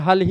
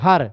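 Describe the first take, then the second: First: The word ends with an l sound. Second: The word ends with an r sound. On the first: This is the standard Khari Boli form. "यहाँ पर हल ही कहेंगे उसको शुद्ध में, मतलब खड़ी बोली में" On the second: This is the Eastern Hindi form. "पूर्वी हिंदी में पश्चिमी हिंदी की ला ध्वनि ... रा में बदल जाती है"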